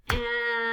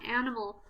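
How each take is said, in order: First: AN... I... MAL in three long beats; split into syllables. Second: Said in the usual way. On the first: Shown as a demonstration. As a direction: sound out animal syllable by syllable. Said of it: "How many syllables?". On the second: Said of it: "listening for how many syllables".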